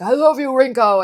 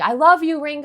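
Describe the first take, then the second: First: It is said in a deep man's voice. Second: It is screamed in a high girlish voice.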